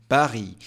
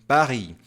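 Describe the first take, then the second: Both takes have the same delivery.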